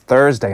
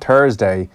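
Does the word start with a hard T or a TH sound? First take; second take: TH sound; hard T. First: The word starts with a TH sound. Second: The word starts with a hard T sound. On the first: The speaker calls it right. "there's a H in Thursday" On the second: The speaker calls it wrong. "It's not Thursday"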